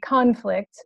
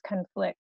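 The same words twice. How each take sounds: First: It is pronounced as the noun form. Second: It is pronounced as the verb form. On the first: It names a disagreement or fight. "say the word as a noun" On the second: It means to disagree or clash. "say the word as a verb"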